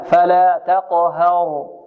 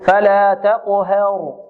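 First: The vowel after h is a plain open a. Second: The vowel after h is raised toward e. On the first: The speaker calls it right. "ها تقليل لا" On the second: The speaker calls it wrong. "فيميل فتحتها فيقول فلا تقهر"

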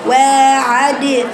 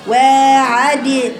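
No difference in how they are said.

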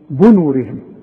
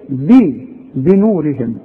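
First: The first vowel is a u sound. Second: The first vowel is an i sound. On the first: The speaker calls it wrong. "في ناس كتير قوي تيجي تقول ايه ... شوف بنورهم بو" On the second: The speaker calls it right. "طب الباء مكسور"

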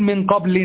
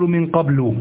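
First: The word ends in a short i plus n. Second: The word ends in a short u vowel. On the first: Nothing is meant to follow it at all. "لو أنني أنوي أن أقطع الكلام لا معنى ولا لفظ" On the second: A specific thing is meant but not spoken. "فأبني هنا على الضم"

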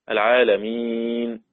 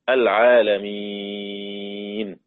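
First: The long vowel before the end is held medium. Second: The long vowel before the end is held long. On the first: "وتوسط" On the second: "وإشباع"

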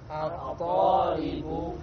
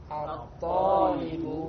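Both takes have the same delivery.

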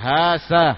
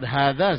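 First: The middle consonant is an 's' sound. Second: The middle consonant is a soft 'dh' sound. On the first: The speaker calls it wrong. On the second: The speaker calls it right. "seorang menyebut hadza saja"

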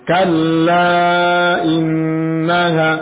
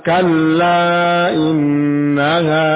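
No difference in how they are said.

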